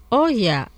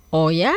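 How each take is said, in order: First: "Oh ya" falling, as an acknowledgement. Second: "Oh ya" rising at the end, as a question. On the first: Teacher models a reply for learners, "Oh ya" falling in acknowledgement. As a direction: say "Oh ya" with a falling tune, like "ah yes". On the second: Teacher models a reaction for learners, "Oh ya" as a rising question. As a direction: ask "Oh ya" like "really?", ending on a rise. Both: Shown as a demonstration.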